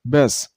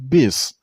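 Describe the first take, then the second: First: The vowel is a reduced, 'a'-like sound. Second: The vowel is a full, clear 'i' sound. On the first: The speaker calls it right. "It's a little bit a sound, so bis" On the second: The speaker calls it wrong. "not bis"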